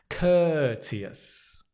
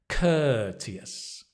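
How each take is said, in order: The two takes are said the same way.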